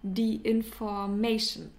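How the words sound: The word is pronounced with an English accent. The speaker calls it wrong. "pronounce it in an English way"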